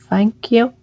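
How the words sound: It is said in a soft, mumbled voice. The speaker calls it right. "She mumbles"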